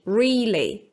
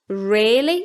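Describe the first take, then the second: First: The first vowel is a long ee sound. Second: The first vowel is a lengthened short i. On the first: "with a long E, as in read" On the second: "using the same vowel as in risk, but making it long"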